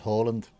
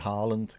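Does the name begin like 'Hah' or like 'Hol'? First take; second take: Hol; Hah. First: The first vowel sounds like the 'o' in Holland. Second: The first vowel is an open 'ah' sound. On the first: This is how the name is said at home. "pronunciation he would say is Haaland" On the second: This is the form people in England are used to. "in England, just call me Haaland"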